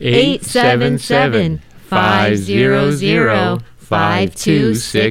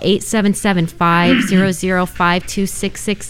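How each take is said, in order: First: The number is said more slowly. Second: The number is said at normal speed.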